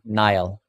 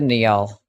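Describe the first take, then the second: First: The name is said like the word Nile. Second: The name is said the way it is spelled. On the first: "But that does make sense, though" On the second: "I'm gonna pronounce it phonetically"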